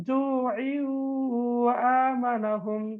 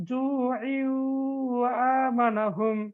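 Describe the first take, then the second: The two takes are said the same way.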